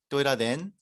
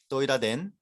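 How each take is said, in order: No difference in how they are said.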